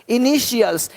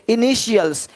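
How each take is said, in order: No difference in how they are said.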